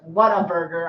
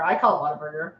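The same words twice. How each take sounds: First: "What a burger" said as three words, WHAT stressed; What a burger split. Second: "Whataburger" blended into one word, wata-burger; run-together Whataburger. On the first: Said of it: "it sounds like Whataburger". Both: Shown as a demonstration.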